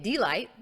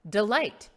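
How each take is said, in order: First: The stress is on the first syllable. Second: The stress is on the second syllable. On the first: The speaker calls it wrong. "I wouldn't say it delight" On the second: The speaker calls it right. "The emphasis is on the second syllable"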